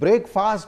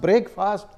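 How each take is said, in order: Both takes have the same delivery.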